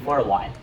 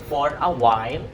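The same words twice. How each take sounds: First: The words are blended smoothly into one flow. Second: The words are said separately, without linking. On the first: The speaker calls it right. "mixing for and a sound" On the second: The speaker calls it wrong. "Instead of saying"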